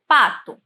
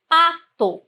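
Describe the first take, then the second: First: Said in the usual way. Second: "pato" split as pa-to; syllable split. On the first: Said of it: "Por exemplo". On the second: Shown as a demonstration. Teacher splits "pato" for students, syllable by syllable. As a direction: divide "pato" into its two syllables, pa-to. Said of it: "Na divisão silábica, eu tenho".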